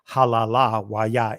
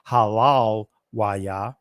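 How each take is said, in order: First: The vowel after 'halal' is kept. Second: The vowel after 'halal' is left out. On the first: The speaker calls it right. "actually it's halala wa Yah in the ancient pronunciation" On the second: The speaker calls it wrong. "they'll drop the ah here"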